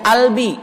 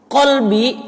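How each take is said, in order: First: The word begins without the q sound. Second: The word begins with a deep q sound.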